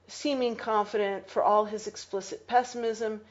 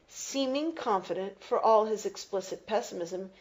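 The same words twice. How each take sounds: The two takes are said the same way.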